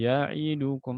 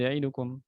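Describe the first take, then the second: First: Every letter is given an even length. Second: One letter is rushed and cut short. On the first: The speaker calls it right. "harus sama" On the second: The speaker calls it wrong.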